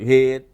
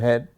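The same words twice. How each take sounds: First: The vowel has a Philadelphia accent. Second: The vowel has a plain, standard accent. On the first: "The way they pronounce like head" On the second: "instead of head"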